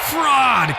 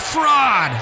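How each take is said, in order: First: High, falling angry cry; the furious crowd cries out. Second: High, falling shouted echo. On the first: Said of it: "cried the maddening thousands". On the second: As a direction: throw it back like an echo. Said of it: "and echo answered". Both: Acted.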